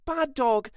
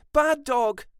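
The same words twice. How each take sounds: First: High scolding cry at the dog; woman screaming at her dog; mock scream. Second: High scolding shout, louder; woman screaming at her dog, louder. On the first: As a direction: shout at the dog. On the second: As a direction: yell at the dog harder. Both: A narrator's reading.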